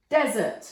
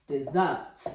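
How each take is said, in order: First: "desert" with DEZ stressed, falling after; stress on first syllable. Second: "dessert" as di-ZERT, dropping low; stress on second syllable. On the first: Teacher reading the rain example, first syllable of "desert" stressed. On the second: Teacher reading the indulge example, second syllable of "dessert" stressed. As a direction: lean on the second syllable of "dessert", lower pitch. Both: Shown as a demonstration. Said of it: "Look at the stress".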